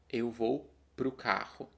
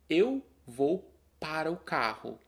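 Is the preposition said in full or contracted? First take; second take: contracted; full. First: The preposition and article merge into one syllable. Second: The preposition and article are said in full. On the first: "quando você fala mais rápido, você contrai a preposição e o artigo" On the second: "ou nós podemos dizer para a e para o"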